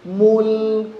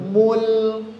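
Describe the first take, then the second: No difference in how they are said.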